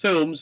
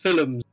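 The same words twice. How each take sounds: First: The word is said in a plain accent. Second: The word is said in an Irish accent.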